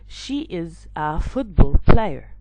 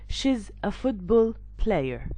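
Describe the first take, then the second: First: She is is said as two full words. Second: She is is shortened into one syllable.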